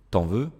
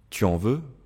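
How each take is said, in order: First: The vowel of tu is dropped before en. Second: The vowel of tu is fully pronounced. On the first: This is casual, informal speech. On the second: This is the standard, formal form.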